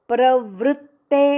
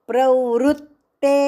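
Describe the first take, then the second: Both takes have the same delivery.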